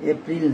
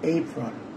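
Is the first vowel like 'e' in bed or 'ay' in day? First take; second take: e as in bed; ay as in day. First: The first vowel sounds like 'e' in bed. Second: The first vowel sounds like 'ay' in day. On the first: The speaker calls it wrong. "এপ্রিল না" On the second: The speaker calls it right. "But এর উচ্চারণ এই"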